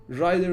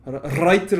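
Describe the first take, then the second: First: "rider" with a smooth, untrilled English R; "rider" in English style, no rolling. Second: "writer" with a strong rolled R; "writer" opened on a hard Turkish R. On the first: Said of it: "R'yi nasıl söylüyorsun?". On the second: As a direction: trill the R at the start of "writer" loudly. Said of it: "Bizim R'yi kullandığımız gibi". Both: Shown as a demonstration.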